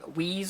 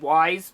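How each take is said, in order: First: The name rhymes with sneeze. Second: The name rhymes with eyes. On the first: "how you're supposed to announce it" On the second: "I've always said Wise"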